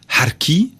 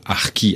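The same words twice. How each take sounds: First: The word has an Algerian pronunciation. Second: The word has a French pronunciation. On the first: "quand on le prononce à l'algérienne" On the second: "nous prononçons le mot harki à la française"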